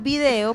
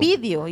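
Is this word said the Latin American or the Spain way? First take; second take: Latin American; Spain. First: It is said the Latin American way. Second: It is said the way people in Spain say it. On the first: The speaker calls it right. "en vez de decir video, porque es video" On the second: The speaker calls it wrong. "le dicen vídeo"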